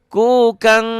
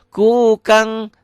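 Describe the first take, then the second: Both takes have the same delivery.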